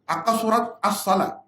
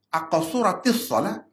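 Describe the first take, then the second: First: The words join with no linking vowel between. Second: An added 'i' vowel links the two words. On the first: The speaker calls it wrong. "Salah selalu" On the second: The speaker calls it right. "itu baru betul"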